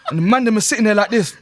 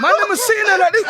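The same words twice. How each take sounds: First: Shouted through laughter; loud and laughing, half-yelled. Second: High, loud laughing yell; laughing shout. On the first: Laughing while mocking the men. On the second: Repeat, louder and higher. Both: Real, not acted.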